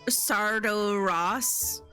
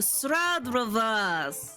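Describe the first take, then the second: First: The name begins with a 'sard' sound. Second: The name begins with a 'strad' sound. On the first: The speaker calls it wrong. "I had been saying" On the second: The speaker calls it right. "and you're like, oh"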